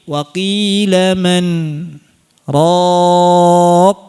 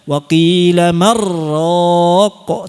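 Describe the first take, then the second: First: A brief break separates man from raq. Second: The n merges into r with no break. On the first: The speaker calls it right. "dijeda dulu di saktah" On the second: The speaker calls it wrong. "Tidak dibaca wa qila marraq"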